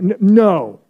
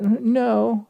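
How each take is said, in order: First: The word is said firmly with conviction. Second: The word is said weakly and hesitantly. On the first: The refusal is final and decisive. The speaker calls it right. "say it with a little bit of conviction" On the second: The refusal is unsure and could be reversed. The speaker calls it wrong.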